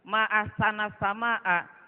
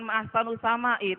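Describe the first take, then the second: First: Ahsana ends in a, sama'a ends in a. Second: Ahsanu ends in u, sama'i ends in i. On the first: It exclaims how beautiful the sky is. The speaker calls it right. "ucapkanlah ma'ahsana sama'a" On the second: It asks what is most beautiful in the sky. The speaker calls it wrong. "jangan ma'ahsanu sama'i"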